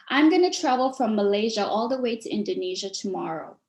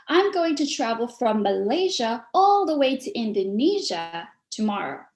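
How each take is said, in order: First: Said in the usual way. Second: Lively stressed phrasing, words leaned on; expressive, with hand emphasis. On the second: Shown as a demonstration. Speaker demoing for public-speaking students, stressed and lively. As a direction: carry them on a journey from place to place. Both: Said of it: "See the difference?".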